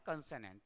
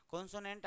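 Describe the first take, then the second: First: कंसोनेंट with a short "kan" at the start, the right way; correct pronunciation. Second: कॉन्सोनेंट with a long open "kon" at the start, as the common mistake; wrong pronunciation. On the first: Teacher giving students the right pronunciation. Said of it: "आपको पढ़ना है कंसोनेंट". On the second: Teacher showing students the wrong way to say it. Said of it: "इसको भी लोग कॉन्सोनेंट पढ़ते हैं कई बार". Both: Shown as a demonstration.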